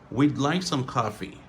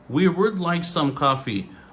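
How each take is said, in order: First: The phrase uses one contracted word, we'd. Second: The phrase uses two full words, we would. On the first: "on dit we'd" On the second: "Au lieu de dire we would"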